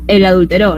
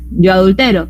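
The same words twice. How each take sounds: First: "adulteró" with the weight on final RÓ; stress on last syllable. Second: "adultero" with the weight on TE; stress on second-to-last syllable. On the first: Teacher giving the third-person example, "adulteró" stressed on RÓ. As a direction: land on the end of "adulteró", adulteRÓ. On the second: Teacher giving the first-person example, "adultero" stressed on TE. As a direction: stress "adultero" as adulTEro, ending weak. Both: Shown as a demonstration. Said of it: "pero si digo adulteró".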